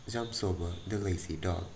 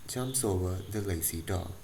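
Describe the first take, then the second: No difference in how they are said.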